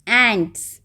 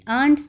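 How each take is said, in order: First: The vowel sounds like the one in 'cat'. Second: The vowel sounds like the one in 'aunt'. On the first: The speaker calls it right. "That is the correct pronunciation" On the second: The speaker calls it wrong. "ये आंट्स नहीं है"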